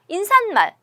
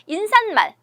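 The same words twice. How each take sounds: Both takes have the same delivery.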